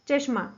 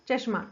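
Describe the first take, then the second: The two takes are said the same way.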